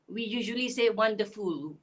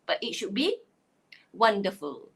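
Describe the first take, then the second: First: The last syllable is a full, separate 'ful'. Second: The last syllable is reduced and joined on. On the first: The speaker calls it wrong. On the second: The speaker calls it right. "So the same thing goes with the word wonderful. ... it should be wonderful"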